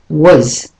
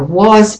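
First: The word is de-stressed, with a weak vowel. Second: The word is said fully, with a clear vowel.

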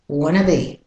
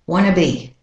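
First: Want to is reduced to wanna. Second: Want to is reduced to wanna.

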